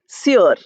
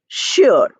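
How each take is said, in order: First: The word begins with a plain s sound. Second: The word begins with an sh sound. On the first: The speaker calls it wrong. "but we don't say sure" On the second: The speaker calls it right. "We say sure"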